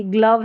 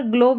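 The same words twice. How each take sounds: First: ग्लव with a short uh, like "gluv"; corrected vowel in ग्लव. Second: ग्लोव with a long o, like "glohv"; wrong vowel in ग्लोव. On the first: Teacher giving learners the right word, ग्लव with short uh. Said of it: "ग्लव है". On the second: Teacher correcting a misreading, ग्लोव said with long o. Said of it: "यहाँ पर ग्लोव नहीं है". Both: Shown as a demonstration.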